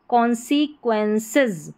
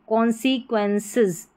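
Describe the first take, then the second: No difference in how they are said.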